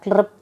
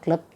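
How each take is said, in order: First: The vowel after 'kl' is an 'ru' sound. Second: The vowel after 'kl' is a plain 'a'. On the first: "ಈ ಕ್ಲೃಪ್ತ ಅನ್ನೋದನ್ನು ಸರಿಯಾಗಿ ಉಚ್ಚರಿಸಬೇಕು" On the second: "ಕೆಲವಷ್ಟು ಪುಸ್ತಕದಲ್ಲಿ ಕ್ಲಪ್ತ ಅಂತಿದೆ"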